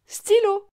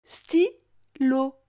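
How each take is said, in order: First: Said in the usual way. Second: "Stylo" as sty... lo, pause between; split into syllables. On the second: Shown as a demonstration. Teacher helping the child hear lo, syllable by syllable. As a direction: break Stylo into two separate syllables. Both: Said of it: "Tu entends bien la syllabe lo".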